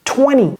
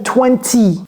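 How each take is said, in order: First: The middle T is dropped completely. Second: The middle T is fully pronounced. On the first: "On enlève complètement" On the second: "J'ai pas dit twenty"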